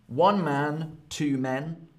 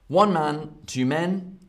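Both takes have the same delivery.

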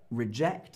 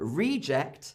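First: The stress is on the second syllable. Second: The stress is on the first syllable. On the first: It is the verb, meaning to turn something away. "Reject is the verb" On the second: It is the noun, meaning something turned away. "but reject is the noun"

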